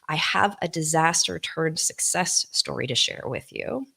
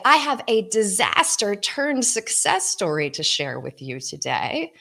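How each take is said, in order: First: The voice sounds small and withdrawn. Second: The voice sounds open and engaging.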